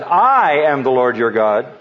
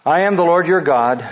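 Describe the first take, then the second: First: "I am the Lord your God" with I punched and slowed; stress on I. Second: "I am the Lord YOUR God" with weight on your; stress on your. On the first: Preacher re-reading verse, stressing I slowly. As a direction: land hard on the word I, slowly. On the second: Preacher to congregation, stressing YOUR in the verse. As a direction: lean on the word your. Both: Shown as a demonstration. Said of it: "Let's emphasize".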